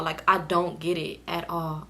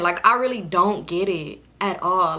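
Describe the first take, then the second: First: Softer and slower, trailing off in confusion; confused, fading. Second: Said in the usual way. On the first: Real, not acted. To viewers, baffled, saying it again softer and slower. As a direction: let the words sink away, baffled. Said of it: "I was so confused". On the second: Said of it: "I really don't understand".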